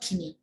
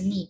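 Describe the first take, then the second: First: The K at the start is pronounced. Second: The K at the start is silent. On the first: The speaker calls it wrong. "knee is not kidney" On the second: The speaker calls it right. "it's a knee"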